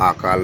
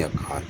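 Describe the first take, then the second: First: अकाल with a long first vowel, "aa-kaal"; stretched opening a, the mistaken form; wrong form shown. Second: अकाल with a short first vowel, "a-kaal"; short opening a, long second syllable; correct pronunciation. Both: Shown as a demonstration. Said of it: "अकाल नहीं अकाल".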